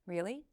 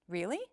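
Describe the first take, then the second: First: "Really" with a modest rise at the end; subtle upward inflection. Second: "Really" swooping steeply up at the end; drastic upward inflection. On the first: Coach showing upward inflection, subtle rise. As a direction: lift the end of "Really" only a little. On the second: Coach showing upward inflection, drastic rise. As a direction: make "Really" a big rising question. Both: Shown as a demonstration. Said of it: "It's true for upward inflection as well".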